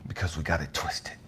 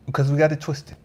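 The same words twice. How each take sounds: First: Low unvoiced whisper on Because we got it twisted; soft low whispered line. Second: Said in the usual way. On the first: Shown as a demonstration. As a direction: hush it down to a whisper.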